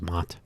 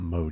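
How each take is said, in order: First: The vowel is a short 'o', like cot. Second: The vowel is a long 'oh', like moat. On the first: The speaker calls it right. "pronunciation is Mott" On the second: The speaker calls it wrong. "It's not Mode, is it?"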